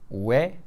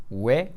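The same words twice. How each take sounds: Both takes have the same delivery.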